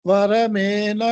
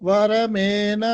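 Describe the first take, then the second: Both takes have the same delivery.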